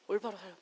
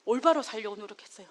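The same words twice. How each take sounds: First: A soft reflective echo of the vow; quiet echo. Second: Said in the usual way. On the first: Real, not acted. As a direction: repeat 올바로 살려고 much softer, to herself. Echoes own resolve softly.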